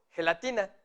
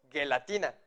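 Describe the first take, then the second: First: Gelatina with a throaty Spanish jota, like hhelatina; correct jota sound. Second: Gelatina with a hard g as in go; wrong hard G. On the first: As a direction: say gelatina starting with the raspy j sound. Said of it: "decimos gelatina". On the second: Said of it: "No decimos gelatina". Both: Shown as a demonstration.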